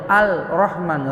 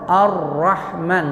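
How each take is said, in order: First: "Al-Rahman" with the l sounded before the r; unmerged lam. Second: Slow "Ar-Rahman" with lam melted into a doubled r; merged lam. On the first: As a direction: wrongly pronounce the l in "Al-Rahman". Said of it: "nggak boleh Al-Rahman". ("Al-Rahman" dengan bunyi lam jelas sebelum ra) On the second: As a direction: say "Ar-Rahman" straight onto a held r, no l. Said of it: "Jadi langsung ke ra". ("Ar-Rahman" pelan, lam dilebur jadi ra bertasydid) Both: Shown as a demonstration.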